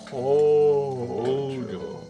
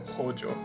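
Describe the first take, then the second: First: The name is drawn out in a put-on character voice. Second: The name is said plainly, in a normal voice. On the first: The speaker calls it right. "how you say it as Oishi" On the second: The speaker calls it wrong. "not as fun to just go Hojo"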